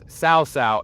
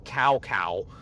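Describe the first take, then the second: First: Each syllable starts with a 'ts' sound. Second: Each syllable starts with a 'k' sound. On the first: The speaker calls it right. "That's how I know that it is Cao Cao" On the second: The speaker calls it wrong. "and not Cow Cow"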